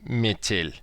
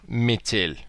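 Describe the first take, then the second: The two takes are said the same way.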